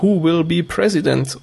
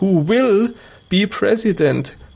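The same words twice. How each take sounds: First: It is said plainly without special stress on will. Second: The word will is stressed playfully.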